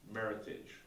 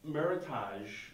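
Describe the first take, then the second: First: The word rhymes with heritage. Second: The word does not rhyme with heritage. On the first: The speaker calls it right. "Think merit and heritage. Combine the two" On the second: The speaker calls it wrong. "it's not correct"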